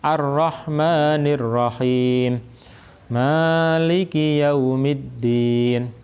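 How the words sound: There is a pause between the two phrases. "Jadi Ar-Rahman berhenti, kemudian lanjutkan Maliki yaumiddin"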